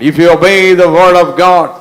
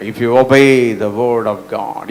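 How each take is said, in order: First: Louder, higher, slow preaching declaration; emphatic repeat. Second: Slow, drawn-out English declaration; measured statement. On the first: Preacher driving a key truth home to the congregation, loud and emphatic. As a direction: proclaim it with full force, drawing out each word. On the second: Preacher stating a key truth to the congregation, slow and measured. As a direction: state it slowly, word by word. Slow first take of repeated line. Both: Real, not acted.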